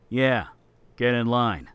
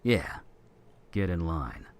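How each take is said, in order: First: It is said angrier, with sarcasm. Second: It is said plainly, without sarcasm.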